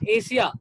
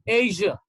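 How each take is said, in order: First: The middle consonant is a voiceless 'sh' sound. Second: The middle consonant is a voiced 'zh' sound. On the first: The speaker calls it wrong. "this is not Asia" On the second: The speaker calls it right. "This is called Asia"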